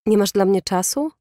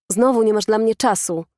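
First: "czasu" lifted in a rising question; indignant question. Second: "Znowu" stressed, falling to "czasu"; angry accusation. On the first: Boyfriend challenges girlfriend, indignant rise on "czasu". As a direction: challenge her, ending upward on "czasu". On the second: Boyfriend accuses girlfriend, stress on "Znowu", falling end. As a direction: hit "Znowu" as a mild yelled reproach. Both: A narrator's reading. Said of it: "wrzasnął".

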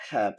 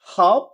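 First: American "hap" with AE, like HAF; American accent. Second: Loud British "hop" with open AH, like HAHF; British accent. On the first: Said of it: "আমেরিকানরা বলতেছে অ্যা". (American উচ্চারণে) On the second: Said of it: "ব্রিটিশরা বলতেছে আ". (British উচ্চারণে) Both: Shown as a demonstration.

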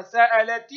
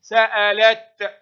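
First: سألت ending in "ti"; ta with its vowel. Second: Slow, loud سألت stopped on t; ta at a pause. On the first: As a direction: sound the final ta of سألت as "ti". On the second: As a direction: end سألت on a crisp t, no vowel. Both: Shown as a demonstration. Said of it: "تنطق تاء في الحركة".

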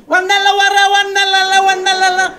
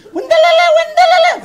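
First: Loud gibberish, pitched moderately high; mimicked old man. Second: Very high, loud gibberish shriek; shouted mock question. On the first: Older man with a cane bringing the answers, loud mock holler. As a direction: bellow the nonsense as a caricature elder. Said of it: "אחד מבוגר אתיופי כזה". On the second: Older woman asking her friend a question, high mock shouting. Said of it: "כאילו היא שואלת שאלה".

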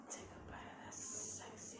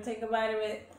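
First: Sultry whisper. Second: Said in the usual way. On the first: Acted. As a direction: whisper it like a temptation. Whispered food tease.

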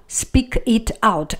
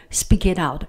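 First: No linking inside "speak it out"; each word separate. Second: "speak it out" run together quickly; linked words. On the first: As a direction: pronounce "speak", "it", "out" singly. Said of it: "pronounce each word". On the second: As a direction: slide "speak it out" into one sound. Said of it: "we do not have that liaison". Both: Shown as a demonstration.

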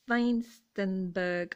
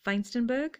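First: Feinstenberg said slowly, syllable by syllable; unsure pronunciation. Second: Feinstenberg tried again with a questioning rise; questioning retry. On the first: Sounding out the German maker name Feinstenberg. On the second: Unsure second try at Feinstenberg, rising. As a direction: ask Feinstenberg back, louder. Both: Real, not acted. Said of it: "if I'm saying that terribly".

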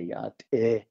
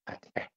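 First: "Yat eh" with a long, emphatic "eh"; stretched form. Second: "at eh" clipped short and quiet, no stretch; shortened sound. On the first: Showing the host the full stretched word, long "Yat eh". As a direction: hold the "eh" of "Yat eh" out, slightly louder. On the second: Contrasting for the host the short form, quick "at eh". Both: Shown as a demonstration. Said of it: "if you shorten that sound".

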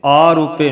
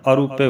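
First: ਆਰੂਪੇ with a long, loud opening aa; wrong long first vowel. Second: ਆਰੂਪੇ as a-roo-pe, short opening a; light, brief a starting ਆਰੂਪੇ; correct short first vowel. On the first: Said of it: "ਐੜੇ ਨੂੰ ਕੰਨਾ ਨਹੀਂ ਲਾਉਣਾ". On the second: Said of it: "ਆਰੂਪੇ ਬੋਲਣਾ". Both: Shown as a demonstration.

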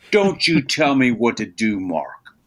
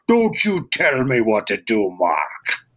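First: Said in the usual way. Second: Puffed-up cartoon voice, dropping low on Mark; a showy cartoon read; big blustery character voice. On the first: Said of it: "I'm playing an action". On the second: Shown as a demonstration. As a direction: play the frosting, all colour and size. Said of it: "So he's this big".

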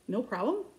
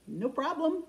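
First: Disbelieving question, rising at the end; incredulous echo. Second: Light retold reply, lifted in pitch; breezy agreement. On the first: Retold or imitated. Customer amazed by the seller's reply, incredulous. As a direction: repeat it back as if you can't believe it. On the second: Seller agreeing to a customer's favor, breezy. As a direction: imitate her easy, higher-pitched yes.

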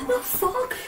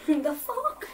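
First: High, startled The fuck?; shocked. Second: Said in the usual way. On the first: Real, not acted. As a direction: blurt it out in shock. Reacts to a shock in the game.

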